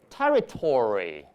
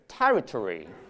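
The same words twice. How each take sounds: First: The -ory ending carries stronger stress. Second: The -ory ending is weak and reduced. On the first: "In American English" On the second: "British English"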